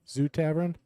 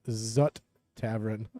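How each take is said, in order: First: The first syllable is said as 'zoo'. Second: The first syllable is said as 'zut'. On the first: The speaker calls it right. "But it's Zoo" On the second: The speaker calls it wrong. "I would have pronounced it Zut Tavern"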